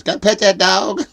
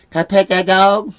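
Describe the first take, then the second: First: Lightly voiced little kid, much higher and louder; a hint of the pleading kid from the video, rising on that; imitating the meme kid. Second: Put-on higher, louder child's plea, "Can I pet that dog?" with pet hit hard; showing his granddaughter how to say it; kid meme voice demo. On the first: Retelling the famous dog kid, mild high kid voice. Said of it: "she sounds just like the kid that says". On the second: Shown as a demonstration. Grandpa coaching granddaughter, higher and louder kid plea. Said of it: "Say it like this." I go".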